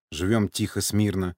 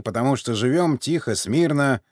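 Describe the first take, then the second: First: Said in the usual way. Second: Put-on old man voice. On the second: A narrator's reading. Sergei's old-man line, first take.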